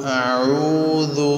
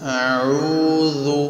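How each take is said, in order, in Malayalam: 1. ഈ ശബ്ദം ലഘുവായി തോന്നുന്നു, നാവ് താഴ്ന്നു തന്നെ നിൽക്കുന്നു. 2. ഈ ശബ്ദം ലഘുവായി തോന്നുന്നു, നാവ് താഴ്ന്നു തന്നെ നിൽക്കുന്നു.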